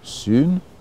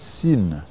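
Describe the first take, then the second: First: The syllable is said with an oo-like vowel. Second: The syllable is said with an ee-like vowel. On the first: This is the Greek pronunciation. "est prononcé en grec sun" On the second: This is the French pronunciation. "en français syn"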